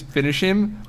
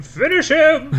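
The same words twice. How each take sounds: First: Mock goat scream. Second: High shrieking goat yell; goat voice scream. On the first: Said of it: "So he screams". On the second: Acted. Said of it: "in my goat voice, I scream".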